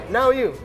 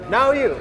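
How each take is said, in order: No difference in how they are said.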